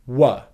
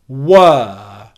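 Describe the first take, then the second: First: The vowel is a short, weak schwa sound. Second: The vowel is a long, held 'er' sound. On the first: "just coming out of it into a schwa sound" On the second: "for the strong pronunciation of were, this is what you get"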